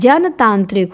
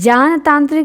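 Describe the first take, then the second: First: The first vowel is short, like 'jan'. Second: The first vowel is long, like 'jaan'. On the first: The speaker calls it right. "जनतांत्रिक होता है" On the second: The speaker calls it wrong. "जानतांत्रिक नहीं होता है"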